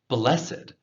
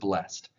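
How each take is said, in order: First: The word is said as two syllables. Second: The word is said as one syllable.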